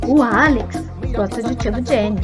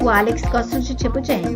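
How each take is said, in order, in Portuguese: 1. A palavra Alex é dita com ênfase forte. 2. É dito de forma uniforme, sem nenhuma palavra enfatizada. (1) "se eu mudar a entonação, ficaria assim: ... Ficou claro que eu dei foco ao Alex" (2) "Eu posso dizer"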